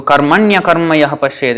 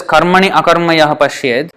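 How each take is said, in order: First: "karmanya karma yah pashyed" with i-a merged into ya; joined pronunciation. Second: "karmani akarma yah pashyed" with i and a both sounded; unjoined pronunciation. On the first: Teacher showing the eight-syllable reading, joined. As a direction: run "karmanya karma" together, one syllable fewer. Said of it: "it becomes eight syllables". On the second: Teacher showing the nine-syllable reading, unjoined. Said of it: "if we pronounce it as". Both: Shown as a demonstration.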